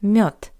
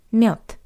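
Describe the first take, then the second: First: The final consonant is a voiceless t sound. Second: The final consonant is a voiceless t sound.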